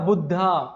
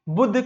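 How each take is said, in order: First: The word ends with an added 'aa' vowel. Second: The word ends on the consonant sound. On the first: This is how English speakers render it. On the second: This is the original Hindi form.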